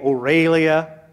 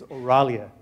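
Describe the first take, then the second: First: The name is said as Aurelia. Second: The name is said as Oralia. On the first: The speaker calls it wrong. "Some people say Aurelia" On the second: The speaker calls it right. "The right way to say it is Oralia"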